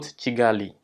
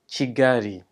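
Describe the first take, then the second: First: The middle consonant sounds like a clear L. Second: The middle consonant sounds like a light R. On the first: The speaker calls it wrong. "not Kigali" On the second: The speaker calls it right. "the L is pronounced as a small R, so when you're speaking in Rwanda, it is Kigali"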